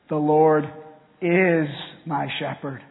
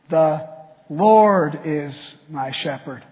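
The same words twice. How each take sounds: First: The word "is" is stressed. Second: The word "Lord" is stressed.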